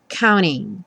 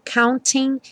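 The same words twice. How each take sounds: First: The T is dropped; only the N is heard. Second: The T sound is clearly pronounced.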